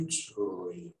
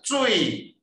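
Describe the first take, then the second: First: Low, soft falling tone on 水; 水 sinking quietly to the bottom; falling third tone. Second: High, sharply falling tone on 水; 水 falling from a high start; second tone. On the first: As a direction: let 水 slide down low and long. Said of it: "二声甲三声拢是降音". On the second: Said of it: "啊，若第二声". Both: Shown as a demonstration.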